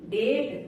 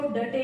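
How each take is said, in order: First: Said in the usual way. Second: डटे in two syllables, final e sounded; wrong reading. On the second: Shown as a demonstration. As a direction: misread date as डटे, "duh-tay". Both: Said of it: "इसको डटे नहीं बोलेंगे".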